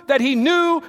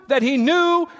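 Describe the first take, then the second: No difference in how they are said.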